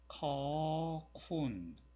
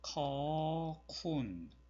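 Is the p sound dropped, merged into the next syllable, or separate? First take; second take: dropped; dropped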